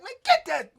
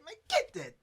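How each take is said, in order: First: High, much louder shouted command; barked order. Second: High, sharp command; retold order. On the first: Retold or imitated. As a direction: yell it to send him back in. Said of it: "Spoon like". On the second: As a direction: shove him forward with a snapped order. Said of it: "Grabbed him by his shirt and said".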